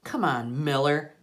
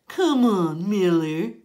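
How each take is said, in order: First: Said in the usual way. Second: Higher, louder whiny mock of Rafe; mock him in a squeaky whine; bully mimicking a squeaky kid; little squeaky voice. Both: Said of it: "in this little squeaky voice".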